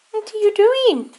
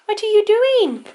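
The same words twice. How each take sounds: First: High cooing pet talk; silly cat voice. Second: Slower, higher cooing pet talk; silly cat voice. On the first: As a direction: coo the question to the cat. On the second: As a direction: stretch the question out, cooing. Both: Real, not acted. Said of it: "silly cat voice".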